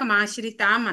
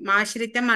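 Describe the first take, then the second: First: The vowel before the final m is long. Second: The vowel before the final m is short. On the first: The speaker calls it wrong. "ఇందాక మాశ్రితాం అన్నాం" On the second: The speaker calls it right. "మాశ్రితం అనాలి"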